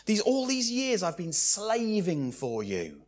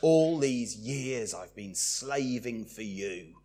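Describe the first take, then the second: First: Begrudging. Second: Slow, softer worn-out complaint; weary. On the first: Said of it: "He has the attitude of begrudging service". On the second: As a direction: sigh it like a tired slave. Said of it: "wearily put up with it". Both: Acted.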